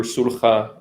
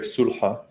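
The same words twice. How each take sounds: First: "Sulha" with a rasping kh, sool-kha; Hebrew pronunciation. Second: "Sulha" with a soft breathy h, sool-ha; Arabic pronunciation. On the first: Guest explains his channel name, Hebrew "Sulha" with kh. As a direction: say "Sulha" the Hebrew way, throaty kh in the middle. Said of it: "in Hebrew, Sulha". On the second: Guest gives the Arabic "Sulha", breathy h. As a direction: say "Sulha" the Arabic way, airy h instead of kh. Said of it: "Still working on my Arabic accent". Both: Shown as a demonstration.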